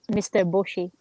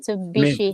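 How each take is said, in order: First: It is split into two words, 'mister Bushi'. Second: It is said as one word, 'Mitsubishi'. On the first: It imitates a funny mispronunciation. The speaker calls it wrong. "he pronounced a name of the cars very funny" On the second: It is the usual pronunciation. The speaker calls it right. "instead of"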